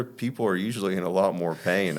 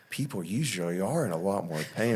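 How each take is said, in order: First: Said in the usual way. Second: "are" swooping up in pitch; stress on ARE. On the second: Retold or imitated. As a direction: lean on "are" in retold disbelief. Lifeguard repeats it, emphasizing are.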